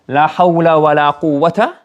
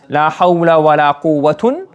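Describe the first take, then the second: First: The last word ends in a short 'a'. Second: The last word ends in 'un'. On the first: "the second word can either be mabni al-fath" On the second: "It can be marfu"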